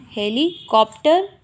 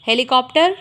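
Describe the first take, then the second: First: "helicopter" slowly, broken into heli and copter; slow dictation. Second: Said in the usual way. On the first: Shown as a demonstration. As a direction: dictate "helicopter" in two parts with a pause. Repeats word slowly while writing. ("Helicopter" धीरे-धीरे, दो हिस्सों में तोड़कर)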